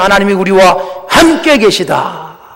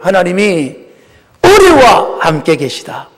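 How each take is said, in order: First: The emphasis falls on the word 함께. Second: The emphasis falls on the word 우리. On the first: God being with us at all is the blessing. "많은 분들이 함께" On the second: God is with all of us, not just me. "제가 뭘 강조했어요? 우리예요"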